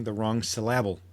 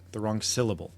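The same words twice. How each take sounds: First: "syllable" stressed on its second syllable, sil-LAB-le; misplaced stress on "syllable". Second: Said in the usual way. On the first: Shown as a demonstration. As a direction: jokingly shift the stress in "syllable" onto LAB. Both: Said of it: "emphasizing the wrong syllable".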